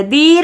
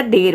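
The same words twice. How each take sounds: First: दीर said as deer with a long ee; wrong long ee. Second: देर said as der, short and lower; correct short e. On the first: Teacher showing the mistake, दीर as deer. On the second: Teacher giving the right reading, देर with a short e. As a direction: say देर short, without stretching. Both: Shown as a demonstration. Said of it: "दीर नहीं पढ़ रहे".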